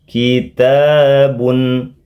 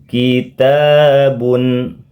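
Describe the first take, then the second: Both takes have the same delivery.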